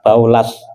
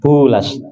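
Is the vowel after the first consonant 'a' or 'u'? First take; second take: a; u. First: The first syllable has an 'a' vowel. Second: The first syllable has a 'u' vowel. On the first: "boleh dibaca baknya fathah" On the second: "Boleh dibaca dhammah"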